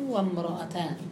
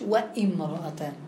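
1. يتصل الحرف الصوتي مباشرة دون همزة. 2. تأتي همزة ثم الكسرة 'i' بعد 'wa'. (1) "قال الله تعالى فرجل وامرأتان" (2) "مش وامرأتان"

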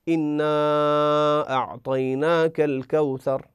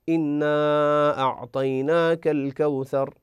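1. يُمدّ المدّ الطويل خمس حركات. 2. يُمدّ المدّ الطويل أربع حركات. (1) "5 حركات" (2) "4 حركات"

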